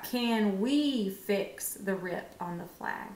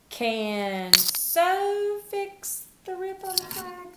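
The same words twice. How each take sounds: First: Slow, even reading; slow right answer. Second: High, slow, silly wrong reading; mock wrong answer. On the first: Teacher tries the right word for the class, slowly. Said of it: "What about". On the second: Teacher tries the wrong word so children hear the mistake, high and slow. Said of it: "That doesn't make sense". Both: Shown as a demonstration.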